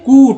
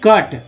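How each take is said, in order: First: The vowel is a long 'oo' sound. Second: The vowel is a short 'uh' sound. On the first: The speaker calls it wrong. "ऊ को ऊ पढ़ते हैं तो गलत है ना" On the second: The speaker calls it right. "यहाँ अ पढ़ते हैं"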